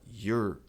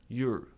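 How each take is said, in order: The two takes are said the same way.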